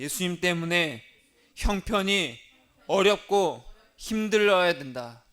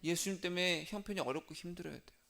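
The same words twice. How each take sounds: First: Louder, slower line for the congregation to repeat; preacher leads the church in a slow, loud recitation; call and response line. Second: Softer, settled repeat of the line; quiet restatement. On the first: Preacher leading the congregation in repetition, louder and slower. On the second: Preacher restating the line to the congregation, softer. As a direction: bring it down after the congregation's echo. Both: Shown as a demonstration. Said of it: "따라하겠습니다".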